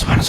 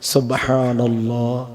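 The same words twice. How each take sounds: First: It is said very fast. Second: It is said slowly.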